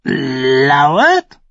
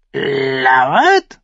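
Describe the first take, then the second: First: High, loud croaking echo of the raven; screeching raven. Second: High, loud screech of a raven. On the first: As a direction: caw the word back like a crow. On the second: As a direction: shriek the word like a crow. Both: A narrator's reading. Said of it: "kreischte der Rabe".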